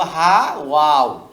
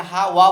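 First: হা ওয়াও, saying the full letter name ওয়াও slowly; correct reading. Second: হা ওয়া, with ওয়া as the sound of the letter; wrong reading. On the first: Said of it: "বলবো হা ওয়াও". (সঠিক: হরফের নাম ওয়াও) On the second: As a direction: say হা ওয়া, giving the sound ওয়া instead of the name. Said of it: "এখানে আমরা হা ওয়া বলবো না". (ভুল: ওয়া উচ্চারণে) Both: Shown as a demonstration.

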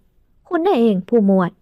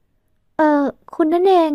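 First: Put-on slow, grudging greeting from an older man; reluctant greeting. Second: Put-on slow, gentle, softened girl's voice. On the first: Father greeting the lieutenant grudgingly, slow and cool. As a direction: greet him without wanting to. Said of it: "เสียงทักไม่ค่อยจะเต็มใจนัก". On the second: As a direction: let her voice melt as she recognizes him. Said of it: "น้ำเสียงของหล่อนอ่อนลง". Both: A narrator's reading.

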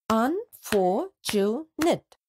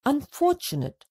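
First: Unfortunate said slowly in four parts; slow syllables. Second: Said in the usual way. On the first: Shown as a demonstration. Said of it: "can be split into four parts". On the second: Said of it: "Let's split the given words into syllables".

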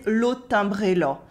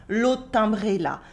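First: Rural Eastern French "là" rounded towards "lo"; slight Eastern France accent, A of "là" turned to O. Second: "là" with an open A, in l'aut' timbré là; usual A. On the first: French teacher copying the waitress's Eastern French accent, "là" said like "lo". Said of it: "the A sounds more like an O". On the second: French teacher quoting the waitress's line, "là" with an A. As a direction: keep the A of "là" open. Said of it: "the way that she accentuates". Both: Shown as a demonstration.

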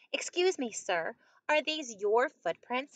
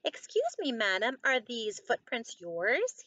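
First: Courteous storybook question, higher on the opening; mildly acted polite inquiry. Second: Lightly acted cheerful storybook question. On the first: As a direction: ask politely, lifting "Excuse me". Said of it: "he asked politely". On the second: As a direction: pipe up cheerfully on "Excuse me". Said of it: "he asked her cheerfully". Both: A narrator's reading.

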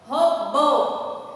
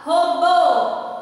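First: Robô repeated, bô lightly stressed. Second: Robô with bô much louder; stress on BÔ. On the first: Teacher repeating robô for the class, bô stressed. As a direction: say Robô again leaning on bô. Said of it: "o bo, né, tem mais intensidade". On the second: Teacher demonstrating robô to pupils, bô stressed hard. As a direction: slam the final bô of robô. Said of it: "Observe que o bo, né, tem mais intensidade". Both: Shown as a demonstration.

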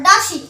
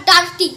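First: ডাসি with no r sound; correct pronunciation. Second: ডার্টি with a sounded r; wrong reading. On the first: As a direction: say ডাসি with the r silent. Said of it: "not ডার্টি". (সঠিক উচ্চারণে ডাসি) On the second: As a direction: say ডার্টি the mistaken way. (ভুল উচ্চারণে ডার্টি) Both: Shown as a demonstration.

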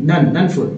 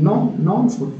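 First: NON with an open 'ah' vowel, as in 'nan'; unrounded vowel in NON, like 'nan'; corrected non. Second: NON with a rounded 'aw' vowel, as in 'nawn'; rounded open 'o' in NON; common pronunciation of non. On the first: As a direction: say NON as 'nan' before food. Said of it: "नहीं". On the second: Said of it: "लोग बोलते non". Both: Shown as a demonstration.

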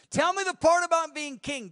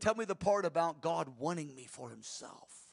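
First: Higher and louder, hungry for the crown; ambitious high pitched plea; greedy eager asking. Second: Said in the usual way. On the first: Retold or imitated. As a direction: beg for the king part with loud craving. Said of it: "that's how most people would ask". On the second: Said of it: "David said".

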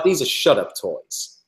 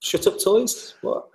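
First: Drawn-out mock New York accent. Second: High-pitched questioning echo, acted; puzzled surprise. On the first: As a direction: slowly deliver it in an imitated New York accent. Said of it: "He was from New York". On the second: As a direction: echo it back in mock disbelief, pitch leaping up. Acts out own puzzled reply.

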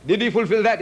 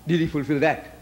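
First: "Did he fulfill that?" pushed louder, ending on a hard fall on "that"; challenging repeat, voice raised; emphatic repeat. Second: Said in the usual way. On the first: Shown as a demonstration. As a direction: press the question home, louder.

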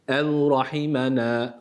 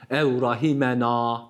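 First: Ev rahimena slowly, nun stretched one elif; slow, long na in rahimena; correct reading. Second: Ev rahimena with the na cut short; clipped rahimena; wrong reading. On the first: Tutor models the long nun. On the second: Tutor shows the mistaken short nun. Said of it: "Ev rahimena değil". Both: Shown as a demonstration.

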